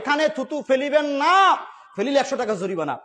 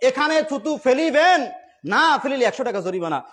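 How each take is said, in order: First: The pause comes after the word 'না'. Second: The pause comes before the word 'না'.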